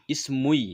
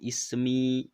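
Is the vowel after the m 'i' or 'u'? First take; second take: u; i. First: The vowel after the m is u, then y. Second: The vowel after the m is a long i. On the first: The speaker calls it wrong. "susah sekali" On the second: The speaker calls it right. "ismi kan ringan membacanya"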